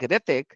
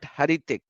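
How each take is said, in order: First: The name starts without an H sound. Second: The name starts with an H sound. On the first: The speaker calls it right. "So it's like Ritik" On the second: The speaker calls it wrong. "not Haritik"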